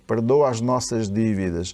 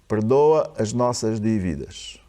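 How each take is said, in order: First: It is read at a normal pace. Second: It is read slowly, with pauses.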